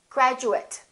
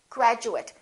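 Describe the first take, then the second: First: The last syllable sounds like it. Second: The same.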